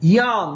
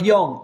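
First: The vowel sounds open, like 'ah'. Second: The vowel sounds rounded, like 'o'. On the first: The speaker calls it right. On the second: The speaker calls it wrong. "Not ইয়ং"

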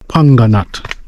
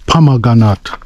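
First: The word is shortened to two syllables. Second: The word is said in full with every syllable. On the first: The speaker calls it wrong. "Some of me can sometimes pronounce the fruit as panganat" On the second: The speaker calls it right. "the right pronunciation is pomegranate"

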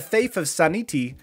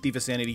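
First: The name is pronounced with distorted vowels. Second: The name is pronounced in the ordinary way.

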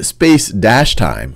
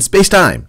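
First: It is said slowly, as two separate words. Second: It is said fast, as one single word. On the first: Space and time are two different things. The speaker calls it wrong. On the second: Space and time are one continuum. The speaker calls it right.

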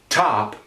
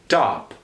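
First: The T is released with a strong puff of air. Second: The T is released with little puff of air. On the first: "an aspirated T like that" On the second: "where it doesn't get as exploded"

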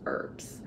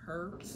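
First: The word starts without an h sound. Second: The word starts with an audible h sound. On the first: The speaker calls it right. "but it's herbs" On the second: The speaker calls it wrong. "You would think it would be herbs"

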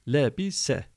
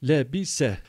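No difference in how they are said.

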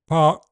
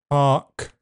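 First: The final 'k' ends with no audible release. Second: The final 'k' ends with a puff of breath. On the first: "park has no audible release" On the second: "park is aspirated"

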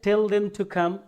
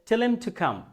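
First: Tell them is said as two full words. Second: Tell them is squeezed into one word, tellem. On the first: "আমরা বলি না যে টেল দেম to come" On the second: "ওরা বলছে টেলেম to come"

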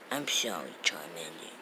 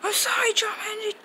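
First: It is said quietly. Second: It is said loudly.

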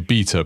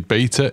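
First: It is said in an English accent. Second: It is said in an American accent.

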